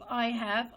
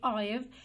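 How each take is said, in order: First: It is said as two full words. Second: It is said as one contracted syllable. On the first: "instead of saying I have" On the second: "they can be contracted to I've"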